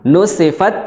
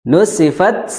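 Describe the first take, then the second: Both takes have the same delivery.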